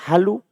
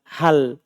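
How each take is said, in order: First: The word ends in an added u vowel. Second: The word ends in a bare consonant. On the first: The speaker calls it wrong. "Jangan pernah dibaca halu" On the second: The speaker calls it right. "Antum baca selalu hal"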